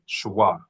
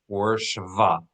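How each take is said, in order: First: A w sound follows the sh. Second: A v sound follows the sh. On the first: This is the older, historical pronunciation. "Shwa is the more historical Hebrew pronunciation" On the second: This is the modern pronunciation. "Or Shiva in modern pronunciation"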